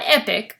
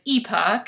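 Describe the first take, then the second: First: The name rhymes with 'epic', ending in 'ick'. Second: The name ends with an 'ock' sound. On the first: The speaker calls it wrong. "Not Epic, I've been pronouncing it wrong" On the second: The speaker calls it right. "but Epoch, pronounce it correctly"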